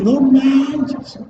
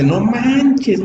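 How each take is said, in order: First: Todavía más agudo, "no manches" exclamado con la boca muy abierta; boca más abierta aún. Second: Muy agudo, exclamando asombrado con la boca abierta; boca bien abierta. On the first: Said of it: "Abrimos bien". ("no manches" exclamado muy agudo, con la boca muy abierta) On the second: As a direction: suelta el "No manches" agudo, abriendo bien la boca. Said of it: "abre más y dice". (exclamación asombrada y aguda, "No manches" con la boca muy abierta) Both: Shown as a demonstration.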